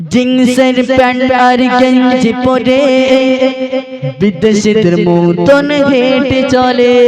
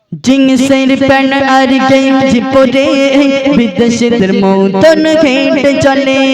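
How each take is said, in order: No difference in how they are said.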